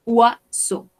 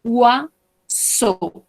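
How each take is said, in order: First: Said in the usual way. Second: "Oiseau" drawn out slowly as "wa-zo"; teacher spelling out "Oiseau" slowly; slow careful model. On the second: Shown as a demonstration. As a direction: stretch "Oiseau" out for learners to copy. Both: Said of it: "Attention à la prononciation de ce mot".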